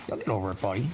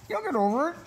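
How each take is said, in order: First: Said in the usual way. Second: Very high sing-song reassurance; high coo. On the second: Real, not acted. Reassuring the nervous dog in a very high coo.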